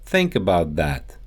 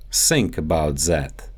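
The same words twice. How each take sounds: First: Said in the usual way. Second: Russian accent, "Think about that" said as "sink about zat"; Russian accent, S and Z for the TH sounds. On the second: Shown as a demonstration. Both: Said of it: "The T H sound".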